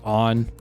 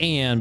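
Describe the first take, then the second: First: The name sounds like 'On', rhyming with 'con'. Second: The name sounds like 'Ann', rhyming with 'can'. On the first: It is said the way the game's voices say it. "they said on" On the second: It is read the way it is spelled. "it looks like Anne"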